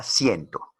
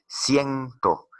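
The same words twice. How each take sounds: First: Said in the usual way. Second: "Ciento" sounded out higher on "cien", falling on "to"; stress on first syllable. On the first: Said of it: "será una palabra aguda o será una palabra grave". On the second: Shown as a demonstration. Teacher tests whether word is grave, "Ciento" stressed on "cien". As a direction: stretch and lift "cien" in "Ciento", let "to" drop. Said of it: "es una palabra grave".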